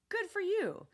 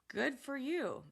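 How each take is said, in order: First: It sounds warm and genuinely pleased. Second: It sounds flat, sarcastic and dismissive. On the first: The speaker is happy and proud of the listener. "Sometimes it's genuinely positive" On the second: The speaker does not relate and is brushing the listener off. "good for you can also sound sarcastic or dismissive"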